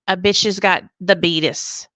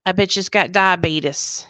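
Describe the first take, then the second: First: "the beatus" said loud for diabetes; joking mispronunciation. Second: Said in the usual way. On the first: Retold or imitated. Telling viewers her news, jokey "the beatus". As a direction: sing out "the beatus" in place of diabetes. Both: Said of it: "I'm going".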